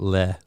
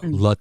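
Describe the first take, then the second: First: The syllable has an 'eh' vowel with no final t. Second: The syllable has an 'uh' vowel and ends in t. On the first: The speaker calls it wrong. "not Le" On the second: The speaker calls it right. "Lut, not Le"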